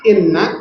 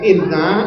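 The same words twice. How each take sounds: First: The final vowel is short, after a doubled n. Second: The final vowel is drawn out long. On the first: It means 'indeed'. The speaker calls it right. "double n tasjid pendek" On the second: It means 'indeed we'. The speaker calls it wrong.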